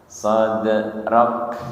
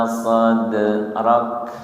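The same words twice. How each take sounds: The two takes are said the same way.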